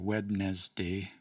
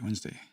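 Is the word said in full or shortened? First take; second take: full; shortened. First: Every syllable is pronounced in full. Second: A syllable is dropped in a shortened form. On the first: The speaker calls it wrong. "We don't say Wednesday" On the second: The speaker calls it right. "we say Wednesday ... shorten things all the time"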